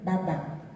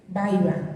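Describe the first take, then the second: First: The b is doubled with no vowel before it. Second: A vowel-like i sound comes before the b. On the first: "se gemina, es decir, se duplica" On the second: "se vocaliza"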